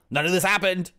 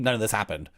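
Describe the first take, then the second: First: Higher, louder indignant outburst; indignant shout. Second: Said in the usual way. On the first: Real, not acted. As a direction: yell it in nerdy outrage. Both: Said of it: "rant about made-up plot".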